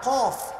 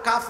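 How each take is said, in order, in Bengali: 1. মোটা ব্যঞ্জন, সঙ্গে গোলাকার 'ও' স্বর। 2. হালকা ব্যঞ্জন, সঙ্গে খোলা 'আ' স্বর। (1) "এটা কফ" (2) "এটা তো কাফ না"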